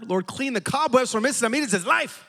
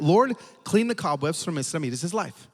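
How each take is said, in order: First: Higher-pitched, intensified mock prayer; harder, fervent prayer. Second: Said in the usual way. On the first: Pastor praying harder for the old lady, high mock-fervent pitch. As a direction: pray it with comic extra fervour. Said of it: "prayed a little harder". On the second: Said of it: "So he prayed that".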